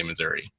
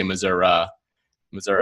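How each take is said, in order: First: Missouri ending in "ee", "Missour-ee"; outsider's Missouri. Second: Missouri ending in "uh", "Missour-uh"; local-style "Missour-uh". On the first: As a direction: say Missouri with a final ee sound. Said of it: "if you're not from Missouri". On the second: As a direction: say Missouri with a final uh sound. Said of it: "if you're from Missouri, you say". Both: Shown as a demonstration.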